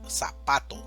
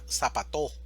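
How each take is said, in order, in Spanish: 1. El acento está en la sílaba de en medio. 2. El acento está en la última sílaba. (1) "decimos zapato" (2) "o si fuera en la última sería zapato"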